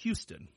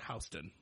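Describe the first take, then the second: First: The name is said the usual, as-spelled way. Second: The name is said the local Ohio way. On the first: This is how most people would read the name. "If you read it as it's spelled" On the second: This is how locals in Ohio say the name. "we pronounce that Houston"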